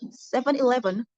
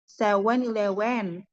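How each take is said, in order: First: The v sound is pronounced normally. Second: The v sound is replaced with another sound.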